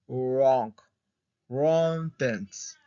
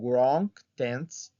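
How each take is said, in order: First: The first word begins with a plain r sound. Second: The first word begins with an audible w sound.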